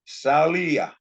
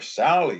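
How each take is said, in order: First: The name ends with an added ah sound. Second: The name ends in an ee sound. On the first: This is the name adapted into the native language. "they add an ah to the end of English words" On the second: This is the English form of the name. "even though Sally ends in a vowel sound, e"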